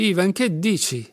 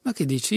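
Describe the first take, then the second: First: Louder and higher, a heartfelt outcry; pained cry. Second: Said in the usual way. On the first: A narrator's reading. Alyosha cries out to Ivan, higher, louder and pained. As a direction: cry out at him, hurt and pleading. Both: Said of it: "gridò Alyosha con calore".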